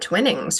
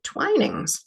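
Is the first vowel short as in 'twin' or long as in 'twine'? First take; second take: short; long. First: The first vowel is short, as in 'twin'. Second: The first vowel is long, as in 'twine'. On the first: This is how the speaker long believed the name was said. The speaker calls it wrong. "I thought this was called tw- uh, Twinnings for the longest time, but actually, no" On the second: This is how people in the UK say the name. The speaker calls it right. "When I got to the U K, they pronounce it Twinings"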